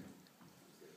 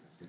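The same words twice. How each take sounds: First: Barely audible, breathy whisper; whispered aside. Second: Said in the usual way. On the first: Real, not acted. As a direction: drop it to a whisper. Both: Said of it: "repeated quieter".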